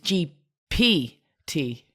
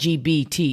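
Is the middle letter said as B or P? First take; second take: P; B. First: The middle letter is said as P. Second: The middle letter is said as B. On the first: The speaker calls it right. "it's G P T" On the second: The speaker calls it wrong. "I'm saying G B T"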